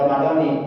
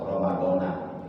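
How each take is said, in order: First: The word ends with the syllable 'ni'. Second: The word ends with the syllable 'na'. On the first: It is the form for the daily fasting intention. "dibaca J R, dibaca jar, nunnya berbaris kasroh" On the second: It is the form for the month-long fasting intention. "kalimat Ramadannya dibaca nasab, Ramadana. Nunnya berbaris fathah"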